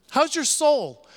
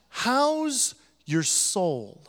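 First: Said in the usual way. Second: Very slow and gentle, weighing each word; slow sincere question. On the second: Shown as a demonstration. Pastor asking the congregation tenderly, slow and sincere. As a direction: ask it tenderly, like you really mean it. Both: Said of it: "looked at you and asked".

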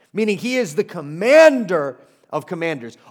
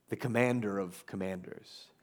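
First: Louder, ringing "commander of commanders"; preacher's ringing "commander of commanders"; emphatic proclamation. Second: Low, hushed title; hushed, weighty "the commander of commanders"; quiet announcement. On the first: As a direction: proclaim it with force. Proclaiming Jesus' authority. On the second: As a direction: set the title down softly. Announcing the sermon point. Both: Real, not acted.

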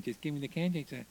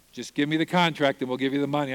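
First: Soft, muttered to himself; replaying the words under his breath; quiet inner thought. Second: Said in the usual way. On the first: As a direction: murmur it alone at night, lying awake. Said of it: "I laid in bed at night thinking". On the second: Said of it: "And I'm like".

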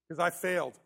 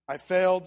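First: Said in the usual way. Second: "failed" hit hard and louder; wyraźnie mocniej "I failed", akcent na "failed"; stressed confession. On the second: Real, not acted. Repeated louder.

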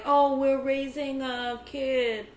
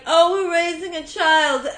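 First: Slow, drawn-out wealthy socialite voice; rich snob. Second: Louder, laughing rich snob voice. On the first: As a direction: lazily put on a pampered rich parent. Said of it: "You did a great impression of a, of a wealthy family". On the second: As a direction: sneer it like a New York socialite. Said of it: "wealthy people are like". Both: Retold or imitated.

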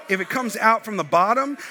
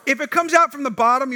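First: Said in the usual way. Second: Pushed up higher and louder; emphatic repeat. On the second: Acted. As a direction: hit it harder the second time. Repeats line with more force.

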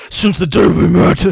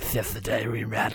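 First: Loud, over-the-top dramatic line; dramatic guy voice. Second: Low, quieter mock dramatic guy. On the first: Retold or imitated. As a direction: belt it like a cheesy love song. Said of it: "the guy voice says". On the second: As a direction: imitate the cheesy guy line softly. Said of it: "he's still doing the".

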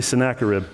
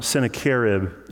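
First: Sennacherib with the stress on NACK; speaker's chosen pronunciation. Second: Sennacherib with the stress moved to CHER; colleague's pronunciation. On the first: Shown as a demonstration. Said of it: "So I'm gonna say Sennacherib". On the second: Retold or imitated. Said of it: "he was pronouncing, I believe he, he said".

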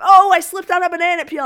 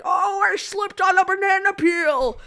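First: Said in the usual way. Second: Loud, high, drawn-out goofy voice; slow, hammed-up wail of a line; silly voice reading. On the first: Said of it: "instead of". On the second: Shown as a demonstration. Actor demos a line said wrong, silly drawn-out voice. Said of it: "If I said it like".

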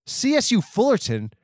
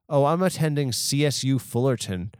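First: "C S U Fullerton?" thrown back high and scornful; incredulous repeat. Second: Said in the usual way. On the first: Acted. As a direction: spit the name back in disbelief. Outraged reaction to the college name. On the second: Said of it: "Oh, it, like, are you, what college you go to?".

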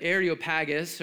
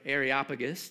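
First: Areopagus as air-ee-oh-PAG-us; stress on PAG. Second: Areopagus as air-ee-OP-uh-gus; stress on OP. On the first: Preacher offers congregation one way to say the place name, Areopagus stressed on PAG. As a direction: say Areopagus with the weight on the fourth syllable, PAG. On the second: Preacher offers congregation the alternative place name, Areopagus stressed on OP. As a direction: say Areopagus with the weight on the third syllable, OP. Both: Shown as a demonstration. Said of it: "depending on where you put the emphasis".

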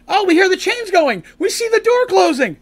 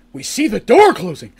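First: High, louder urgent calling; excited alarm. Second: Said in the usual way. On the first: Retold or imitated. Friends running toward the closing door, urgent high call. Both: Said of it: "they're like".

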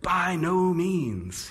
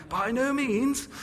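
First: Said in the usual way. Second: High, slow haughty dowager voice; plummy aristocratic lady, drawn out; imperious plummy grande dame. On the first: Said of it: "makes him sound a bit like the Dowager". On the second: Retold or imitated. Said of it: "makes him sound a bit like the Dowager from Downton Abbey".

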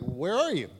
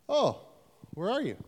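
First: Said in the usual way. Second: Much higher, wailing mock plea; whiny plea. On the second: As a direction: whine it up high like a lost child. Repeated plea, second take higher.

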